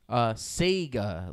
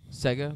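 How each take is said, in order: First: The first syllable sounds like 'say'. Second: The first syllable sounds like 'seg'. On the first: "like S-A-Y" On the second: "Like S-E-G-G-A?"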